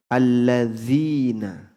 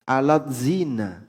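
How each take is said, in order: First: The middle is one smooth 'dh' sound. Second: The middle is split into 't' then 'z'. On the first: The speaker calls it right. "Misalnya alladzina" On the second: The speaker calls it wrong. "Dibaca alat zina"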